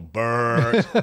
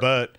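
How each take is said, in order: First: The name is dragged with a heavy throaty r. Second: The name is said lightly, without a heavy r. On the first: "you're all Bert. Americans drag it hard" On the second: "his name's Bert"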